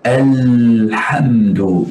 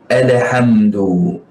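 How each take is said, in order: First: The lam sound is smooth with no bounce. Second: The lam sound bounces with an added echo. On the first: The speaker calls it right. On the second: The speaker calls it wrong. "sifatul qalqalah bersama huruf lam ... Ini satu kesalahan"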